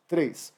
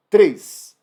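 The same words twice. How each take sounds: First: Said in the usual way. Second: "Três" called out loud and high; "Três" rising to a loud call; emphatic count. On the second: Shown as a demonstration. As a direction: announce "Três" with a punch.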